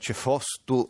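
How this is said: The middle vowel is o, with an s. This is the form used toward Carnia. "cefostu verso la Carnia"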